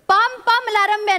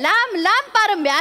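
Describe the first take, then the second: First: The first word begins with a p sound. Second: The first word begins with an l sound. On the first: The speaker calls it wrong. "नाही रे" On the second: The speaker calls it right. "असं आहे"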